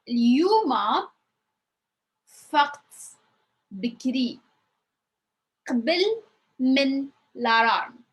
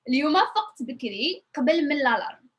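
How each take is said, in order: First: The sentence is spoken slowly and carefully. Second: The sentence is spoken fast, at natural speed. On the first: "let's repeat it one more time and slowly" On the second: "in my normal speed it's going to sound like this"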